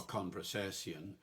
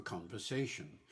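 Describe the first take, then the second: First: "conversation" ending in "sess-ee-on"; old five-syllable "conversation"; original pronunciation. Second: Said in the usual way. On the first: Shown as a demonstration. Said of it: "no modern accent says". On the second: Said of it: "conversation for conversation".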